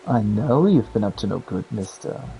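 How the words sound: It is said in a sultry, seductive way.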